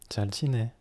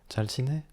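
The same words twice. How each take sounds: No difference in how they are said.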